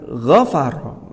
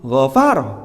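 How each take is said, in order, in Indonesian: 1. Tekanannya ada di suku kata pertama. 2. Tekanannya ada di suku kata yang lebih belakang. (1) "maka nabrnya ada di gha-nya" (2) "Jangan keliru ... enggak cocok"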